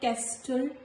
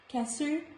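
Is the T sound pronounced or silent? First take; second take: pronounced; silent. First: The T sound is pronounced in the middle. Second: The T sound is silent in the middle. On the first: The speaker calls it wrong. "not castle" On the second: The speaker calls it right. "Letter T is silent"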